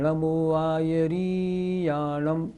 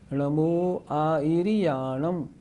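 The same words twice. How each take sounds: First: The 'ri' vowel is drawn out long. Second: The 'ri' vowel is kept short. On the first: The speaker calls it wrong. "लोग बोलते हैं णमो आयर्याणम, ये गलत हो गया" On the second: The speaker calls it right. "ई और री छोटी"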